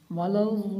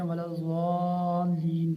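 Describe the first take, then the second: First: Long-drawn "वलज़्ज़ाल्लीन" with a distinct doubled lam; lam made clear. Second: "वलज़्ज़ाल्लीन" with the lam swallowed; careless wrong reading. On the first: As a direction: hold the long "aa" of "वलज़्ज़ाल्लीन", then sound the lam. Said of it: "लाम को इसके साथ ज़ाहिर करना है". ("वलज़्ज़ाल्लीन" में लाम ज़ाहिर करके) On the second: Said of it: "लोग इसमें भी गफलत करते हैं". ("वलज़्ज़ाल्लीन" में लाम ज़ाहिर किए बिना) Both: Shown as a demonstration.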